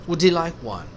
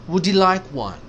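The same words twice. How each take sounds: Both takes have the same delivery.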